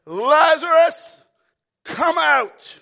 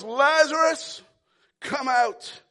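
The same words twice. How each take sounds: First: Big commanding call, drawn-out name; Jesus shouting into the tomb; loud shout. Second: Strong call, name stretched; Jesus calling Lazarus from the grave; yell. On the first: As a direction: call him out of the tomb loudly. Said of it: "he shouted in a loud voice". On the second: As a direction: call out with authority. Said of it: "And he yells". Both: Acted.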